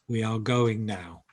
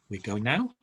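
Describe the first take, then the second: First: The voice falls at the end. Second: The voice rises at the end.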